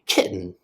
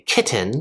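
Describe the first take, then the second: First: The middle T is cut off. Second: The middle T is fully released. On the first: The speaker calls it right. "we say kitten. It gets cut off" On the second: The speaker calls it wrong. "We don't say kitten"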